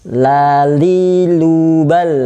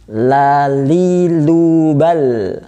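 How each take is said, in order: No difference in how they are said.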